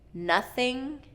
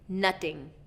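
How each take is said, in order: First: The middle consonant is a voiceless th. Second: The middle consonant is a t sound. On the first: The speaker calls it right. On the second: The speaker calls it wrong.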